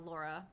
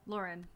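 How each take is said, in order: First: Name said as "Laura", ending on a plain open vowel with no n; the wrong name "Laura" said casually; wrong name slip. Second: "Lauren" said in full, finishing on a clear final n; self-correction, "Lauren" with the n sounded; corrected name. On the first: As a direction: slip and say "Laura" by mistake, lower and soft. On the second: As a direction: correct yourself and say "Lauren" plainly. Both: Real, not acted. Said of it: "I keep saying Laura".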